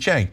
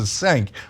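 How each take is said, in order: First: The name begins with a J sound. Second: The name begins with a plain C sound, not J. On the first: It is said the way the name really sounds. The speaker calls it right. "but it's actually Cenk" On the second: It is said the way the spelling suggests. The speaker calls it wrong. "it looks like you should pronounce it Cenk"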